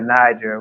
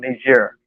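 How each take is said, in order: First: It is said like the English river name. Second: It is said with a French pronunciation. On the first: "sometimes we said Niger ... it's like the Niger River" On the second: "in the French pronunciation, was called Niger"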